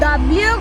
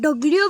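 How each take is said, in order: First: The letter is said in a rural village way. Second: The letter is said in an urban city way. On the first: This is how uneducated village people say it. The speaker calls it wrong. "তোদের মতন মূর্খরা যেটাকে ডাব্লিউ গস" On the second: This is how city people say it. The speaker calls it right. "আমরা শহরের মানুষেরা এটাকে ডব্লিউ বলি"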